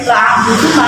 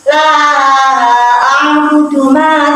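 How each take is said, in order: First: The vowel in 'la' is cut short. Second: The vowel in 'la' is held long. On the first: The speaker calls it wrong. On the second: The speaker calls it right.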